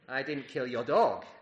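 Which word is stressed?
dog. The word 'dog' carries the emphasis.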